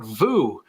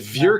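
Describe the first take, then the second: First: The vowel sounds like 'oo' in 'food'. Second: The vowel sounds like a rounded 'uh'. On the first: The speaker calls it wrong. "It's not vous" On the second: The speaker calls it right. "So it's it's vieux carré"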